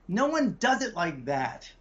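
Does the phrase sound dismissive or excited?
dismissive. It sounds flat and dismissive. The idea will not work. The speaker calls it wrong. "your intonation is terrible"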